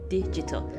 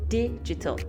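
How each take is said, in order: No difference in how they are said.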